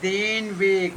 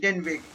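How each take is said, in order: First: Den Weg with a long, closed E in den. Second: Den Weg with den like English "den"; short E in den. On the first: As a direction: stretch den towards "dayn" in den Weg. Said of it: "this is single consonant". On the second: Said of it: "Nicht, no, nicht den Weg". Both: Shown as a demonstration.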